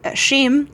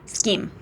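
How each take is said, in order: First: The word begins with an sh sound. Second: The word begins with an sk sound. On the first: "he was pronounced badly" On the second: "I think that's how to pronounce it"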